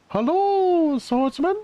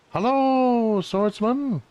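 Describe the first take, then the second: First: It is said in a higher character voice. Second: It is said in a lower character voice. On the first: The speaker calls it right. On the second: The speaker calls it wrong.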